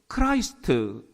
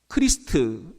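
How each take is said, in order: First: The first vowel sounds like 'eye'. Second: The first vowel sounds like 'ee'. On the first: This is the English way of saying it. "영어로는 크라이스트 이렇게 얘기를 합니다" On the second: This is the Korean way of saying it. "이걸 우리가 이제 크리스트"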